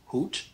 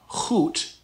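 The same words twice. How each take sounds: First: It begins with a plain, soft H sound. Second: It begins with a rough sound from the throat. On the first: The speaker calls it right. "just a regular H, so no rough sound" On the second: The speaker calls it wrong. "not hoot. This is not the Dutch G"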